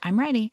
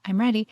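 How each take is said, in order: No difference in how they are said.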